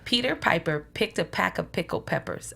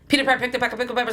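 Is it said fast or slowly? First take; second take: slowly; fast. First: It is said slowly. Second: It is said fast.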